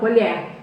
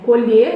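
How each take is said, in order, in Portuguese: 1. A vogal tônica é um e aberto. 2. A vogal tônica é um e fechado. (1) "uma colher de comer, é aberto" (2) "quando é o verbo colher, né, já é fechado"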